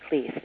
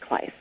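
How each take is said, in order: First: The vowel is not a long I sound. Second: The vowel is a long I, like mice. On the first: The speaker calls it wrong. "it's not Kleiss" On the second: The speaker calls it right. "it's Kleiss. Rhymes with mice"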